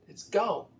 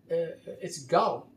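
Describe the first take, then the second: First: Said in the usual way. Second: Slow, drawn-out mock of a TV ad lady; commercial lady quote. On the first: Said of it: "That's how she said it". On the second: Quoting a commercial lady to his viewers, slow mock delivery. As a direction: let "gone" sink slowly like the woman in the ad. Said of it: "I'm quoting a lady that I see in a commercial".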